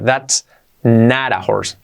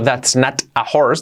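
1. La t de not es un toque suave. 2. La t de not es una t fuerte. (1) "digo that's not a horse. La T de not, al ser entre vocales, la hacemos como una resuave" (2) "no digo that's not a horse"

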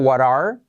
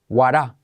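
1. El sonido R al final se pronuncia. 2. El sonido R al final se omite. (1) "En vez de what are" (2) "en vez de are, decae la R"

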